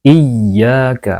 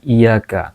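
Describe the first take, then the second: First: The y sound is held doubled. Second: The y sound is short and single. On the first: The speaker calls it right. "karena ada tasydid pada huruf iya" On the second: The speaker calls it wrong. "bukan iyaka"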